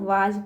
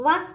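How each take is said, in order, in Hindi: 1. शब्द 'was' का अंत z की ध्वनि से होता है। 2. शब्द 'was' का अंत s की ध्वनि से होता है। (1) "ज का उच्चार निकलता है" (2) "वास नहीं पढ़ते हैं तो गलत हो जाएगा हमारा"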